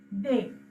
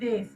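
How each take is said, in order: First: The word ends in a vowel, no s sound. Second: The word ends with an audible s sound. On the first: The speaker calls it right. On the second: The speaker calls it wrong. "Most of the t- people are trying to say this. No, that's wrong"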